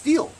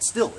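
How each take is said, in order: First: The vowel is long, rhyming with 'feel'. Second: The vowel is short, rhyming with 'fill'. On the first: The speaker calls it right. "it's pronounced steel" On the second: The speaker calls it wrong. "that guy called it still"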